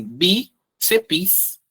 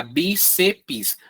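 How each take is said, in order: First: Bíceps in two beats, bí then ceps; bíceps slowly split as bí, ceps; correct syllable split. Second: Bíceps split into three beats, bi, ce, pis; bíceps as three spelled-out syllables; common wrong syllabification. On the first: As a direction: pause after bí in bíceps, then ceps together. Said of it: "separa assim". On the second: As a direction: add an i in bíceps, making a final pis. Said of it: "tendência a falar bíceps". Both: Shown as a demonstration.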